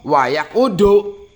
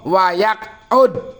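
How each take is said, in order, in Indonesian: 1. Kata itu diakhiri dengan tambahan vokal u. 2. Kata itu diakhiri dengan bunyi d mati. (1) "Jangan dibaca" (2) "Lafat wa yaqud dale mati. Jazm"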